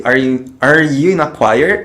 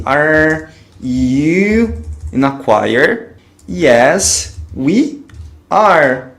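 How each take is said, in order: First: Said in the usual way. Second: Pergunta em inglês bem lenta e articulada; bem devagar, didático. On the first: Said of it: "Vamos conferir?". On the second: Shown as a demonstration. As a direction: dite devagar como professor. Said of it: "vou colocar ele no início da frase". (pergunta lenta para o aluno repetir)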